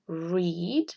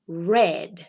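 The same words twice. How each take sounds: First: "read" said like "reed", rising at the end; present-tense read. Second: "read" said like "red", falling at the end; past-tense read. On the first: Teacher models the present tense for students, present-tense read. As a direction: say "read" with a long ee, lifted as if listing. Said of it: "cambia solamente cómo se lee". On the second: Teacher models the past form for students, past-tense read. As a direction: say "read" with a short e, like the colour red. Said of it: "como el color rojo". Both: Shown as a demonstration.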